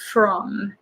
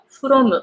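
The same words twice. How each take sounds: First: The R is pulled back with a strong F. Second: The R is a quick tap of the tongue. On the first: The speaker calls it right. "very strong F at the beginning... the tongue goes in the back" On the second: The speaker calls it wrong. "I used to pronounce it from, from, from, like ta ta ta"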